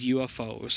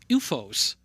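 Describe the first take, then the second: First: It is spelled out letter by letter. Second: It is said as one word, like 'you-fohs'.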